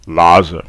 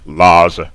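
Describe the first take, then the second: First: The guttural is dropped and syllables merge. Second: The guttural is dropped and syllables merge.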